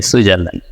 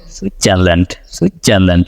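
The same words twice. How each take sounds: First: সুইজারল্যান্ড with a clear Bengali j and a full final d; সুইজারল্যান্ড as Bangladeshi learners say it; Bengali-style Switzerland. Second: American সুইজারল্যান্ড, relaxed and slurred; American accent. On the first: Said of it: "আমরা কি বলি?". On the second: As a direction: do সুইজারল্যান্ড like a native speaker, dropping the hard d. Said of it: "But ওরা কি বলে?". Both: Shown as a demonstration.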